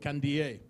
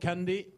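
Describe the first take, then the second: First: The surname ends in an ee-er sound. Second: The surname ends in a plain ee sound. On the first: The speaker calls it right. "it's Kibiwot Kandier" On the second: The speaker calls it wrong. "it looks like candy on paper"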